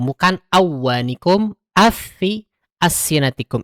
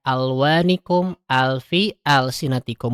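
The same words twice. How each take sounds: First: "awanikum afi" with the l dropped; wrong reading. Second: Slow, with the lam sounded clearly in "Alwanikum alfi". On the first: Teacher shows the wrong lam-less reading. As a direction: swallow the lam on purpose to show the mistake. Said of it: "Itu salah". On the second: Teacher demonstrates clear lam to mothers, slow. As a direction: pronounce each l distinctly, unhurried. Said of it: "dibacanya jelas ya". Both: Shown as a demonstration.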